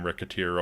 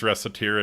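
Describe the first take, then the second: First: The C is said as a hard K sound. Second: The C is said as a soft S sound. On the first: Someone misread the name. The speaker calls it wrong. "anybody misreads the sign Ricketeer" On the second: This is how the name is meant to be read. The speaker calls it right. "it is Reciteer"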